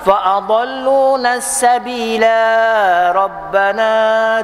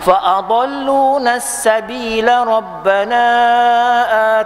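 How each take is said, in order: First: The vowel before the next word is long. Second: The vowel before the next word is short. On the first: The speaker calls it wrong. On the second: The speaker calls it right.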